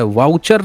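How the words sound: The word starts with a 'v' sound. This is not how people in Bihar say it. "वाउचर नहीं बोलते"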